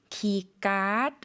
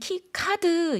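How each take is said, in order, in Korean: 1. card의 k는 경음이고 유기음이 아니에요. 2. card의 k는 유기음이라서 숨을 내뱉으며 터뜨려요. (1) "카드를 까 쌍기역 발음으로 발음하고요" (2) "우리는 키카드 이렇게 발음하지만"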